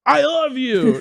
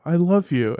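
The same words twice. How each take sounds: First: Mock-angry, pitched up high; playful show of anger, high; mad. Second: Mildly sincere declaration; a touch of earnest feeling; like you mean it. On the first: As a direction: blurt it as if you're mad. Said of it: "Now say it like you're mad". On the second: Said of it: "now say it like you mean it". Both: Shown as a demonstration.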